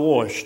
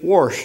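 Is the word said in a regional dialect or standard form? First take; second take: standard; regional dialect. First: Said in the ordinary standard pronunciation. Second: Said in the speaker's regional home-dialect pronunciation. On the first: This is how other people say it. "instead of wash" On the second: This is how people from the speaker's home region say it. "that's why we say wash"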